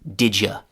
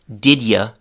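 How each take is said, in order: First: The d and y merge into a j sound. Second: The d and y sounds stay separate. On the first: "became didya" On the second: "the already short didya"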